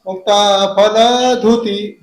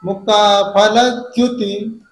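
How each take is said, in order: First: फलधुति with plain ध instead of द्य; Bundelkhand mispronunciation. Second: फलद्युति with clear द्य; correct pronunciation. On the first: Retold or imitated. Teacher imitating how Bundelkhand readers say it. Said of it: "Bundelkhand वाले ऐसे पढ़ते हैं". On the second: Shown as a demonstration. Teacher giving the right फलद्युति after the wrong one. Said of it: "धुति नहीं है".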